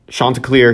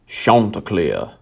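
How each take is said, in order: First: It is said in a neutral accent. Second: It is said in a southern American accent.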